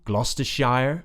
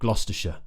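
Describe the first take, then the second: First: The ending is a full 'shire' sound. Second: The ending is a short 'sh' sound. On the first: "you might hear an American sometimes say" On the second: "in R P British English, it's just sh"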